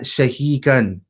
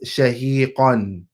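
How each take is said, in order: First: It has a plain k sound before -an. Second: It has a deep throaty q sound before -an. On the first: The speaker calls it wrong. "This is not shahikan" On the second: The speaker calls it right. "This is shahiqan"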